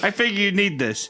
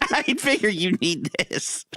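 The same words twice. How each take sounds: First: It is said plainly, without laughing. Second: It is said with a laugh in it.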